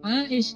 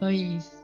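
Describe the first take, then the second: First: The name begins with an 'ai' sound. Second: The name begins with an 'e' sound. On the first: This is the original Arabic form. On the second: This is how Sundanese speakers say it. "Sampai di Sunda jadinya Eis"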